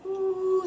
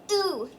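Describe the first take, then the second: First: "ooh" eased in on a silent h; long "ooh" with no hard attack; soft onset. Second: "Ooh" with a hard glottal start; hard onset. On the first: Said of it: "start soft on that vowel". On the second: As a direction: start "Ooh" abruptly from a closed throat. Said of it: "that hard sound at the beginning". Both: Shown as a demonstration.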